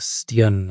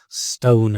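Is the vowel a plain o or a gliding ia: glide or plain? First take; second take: glide; plain. First: The vowel glides like ee-ah. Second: The vowel is a plain long o sound.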